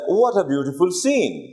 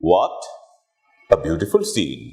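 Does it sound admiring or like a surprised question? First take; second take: admiring; surprised question. First: It is said as one admiring exclamation. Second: "What" is a separate question, then a statement.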